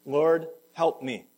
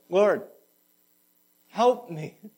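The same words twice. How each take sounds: First: Slow, louder "Lord, help me"; slow plea. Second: Desperate plea. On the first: Mother's short prayer to the Lord, slow and pleading. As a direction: lean on each word, begging. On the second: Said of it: "the desperation in her voice". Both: Acted.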